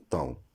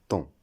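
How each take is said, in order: First: "taon" split into ta-ON; wrong pronunciation. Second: "ton" as one nasal syllable, like temps; correct pronunciation. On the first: Teacher showing the mistake in taon, mispronounced as ta-on. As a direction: say "taon" in two syllables, sounding A then nasal ON. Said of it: "La prononciation incorrecte". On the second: Teacher giving the right form of taon, correctly pronounced temps. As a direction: say "ton" as tɑ̃, the word taon without an O. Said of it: "La bonne prononciation". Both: Shown as a demonstration.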